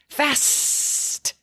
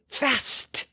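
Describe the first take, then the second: First: The s sound is long and drawn out. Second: The s sound is short and plain. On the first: "then you can draw out the s to bring attention to it" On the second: "you can say it fast first"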